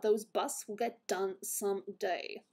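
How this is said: It is read in a put-on character voice.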